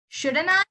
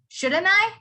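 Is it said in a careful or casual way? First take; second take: casual; casual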